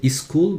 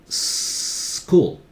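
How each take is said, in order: First: A short vowel comes before the s sound. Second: The word begins directly with the s sound. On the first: The speaker calls it wrong. "Do not start with is. No vowel before that" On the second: The speaker calls it right. "Just school"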